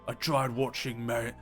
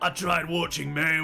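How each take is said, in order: First: It is said in the speaker's normal accent. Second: It is said in an imitated American accent. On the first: The speaker calls it wrong. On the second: The speaker calls it right.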